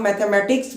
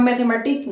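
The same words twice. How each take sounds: First: मैथमेटिक्स said with a clear final s; correct form mathematics. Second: मैथमेटिक्स said as "mathematic", final s dropped; wrong form mathematic. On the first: Teacher gives students the right form, मैथमेटिक्स with the s. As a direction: end मैथमेटिक्स on a crisp s sound. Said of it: "हम मैथमेटिक्स बोलते हैं". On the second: Teacher demos the wrong form, मैथमेटिक्स without final s. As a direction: say मैथमेटिक्स without the closing s sound. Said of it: "हम मैथमेटिक्स नहीं बोलते". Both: Shown as a demonstration.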